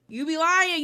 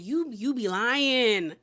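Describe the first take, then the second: First: Higher sing-song taunt. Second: Slow drawn-out taunt. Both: Shown as a demonstration. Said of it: "it's just giving".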